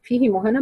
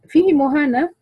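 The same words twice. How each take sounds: First: "فيه مهانة" with a short hi on "فيه"; without sila. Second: "فيه مهانة" with the hi of "فيه" lengthened, higher pitch; ishba' on the ha. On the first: Teacher shows the reading, "فيه مهانة" with short kasra. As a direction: recite "فيه مهانة", no lengthening after the ha. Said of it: "بدون صلة". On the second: Teacher quizzing who lengthens it, "فيه مهانة" with sila. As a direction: recite "فيه مهانة", filling out the vowel after the ha. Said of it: "مين فقط اللي يشبعها". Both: Shown as a demonstration.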